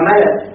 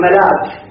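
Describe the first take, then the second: First: The glottal stop is dropped, with short vowels. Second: A glottal stop is heard between the vowels. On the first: The glottal stop is lightened by deletion. "خففت الهمزة يعني بالحذف" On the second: This is the original full form. "ملك يقول أصله ملأك"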